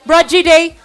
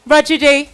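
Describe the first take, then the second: No difference in how they are said.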